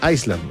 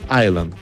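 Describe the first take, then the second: First: An s sound is heard in the word. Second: No s sound is heard in the word. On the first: The speaker calls it wrong. "Hay gente que dice Iceland, no" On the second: The speaker calls it right. "es Island, como Coney Island"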